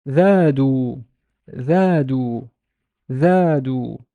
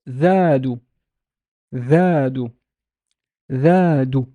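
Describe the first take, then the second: No difference in how they are said.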